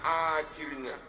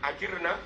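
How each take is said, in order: First: The word is read as it sounds following the melody. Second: The word is read in the plain, intended pronunciation. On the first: Asking God for a hiring contract. The speaker calls it wrong. "Tapi mereka bacanya" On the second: Asking God for protection. The speaker calls it right. "Harusnya dibaca"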